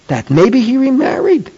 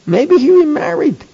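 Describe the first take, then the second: First: Said in the usual way. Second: "Maybe" lifted much higher, the rest falling; stress on maybe. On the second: Shown as a demonstration. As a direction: lean hard on "Maybe" as the key idea.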